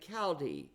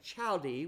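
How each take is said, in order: First: The word begins with a hard 'k' sound. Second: The word begins with a soft 'ch' sound. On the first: The speaker calls it right. "we say chaldee" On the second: The speaker calls it wrong. "we don't say chaldee"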